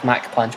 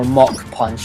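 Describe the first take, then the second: First: The first word rhymes with 'back'. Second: The first word rhymes with 'rock'. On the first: This is the speaker's own preferred name. "I still think it should be called Mac Punch" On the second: This is how the show's episodes say it. "as they pronounce it in the episodes"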